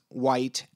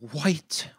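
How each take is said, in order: First: It starts with a plain W sound. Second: It starts with a breathy H before W.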